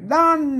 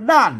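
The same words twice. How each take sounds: First: The word is said with the special tone. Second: The word is said with the ordinary tone. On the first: "ถ้าใส่จุดนี่คืออ่านเป็นด้านนะครับ" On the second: "ถ้าบ่ใส่จุดมันอ่านว่าด้านเห็นไหมมันเสียงโทปกติ"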